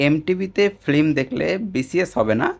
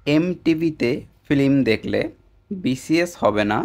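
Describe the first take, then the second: First: Said in the usual way. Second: Slow, deliberate "এমটিভিতে film দেখলে BCS হবে না" with each word set apart; slow mnemonic. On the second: Shown as a demonstration. Teacher giving students a memory trick, slow and deliberate. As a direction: lay out the memory trick slowly. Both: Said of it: "এই কথাটা একবার বুঝুন".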